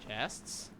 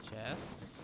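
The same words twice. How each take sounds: The two takes are said the same way.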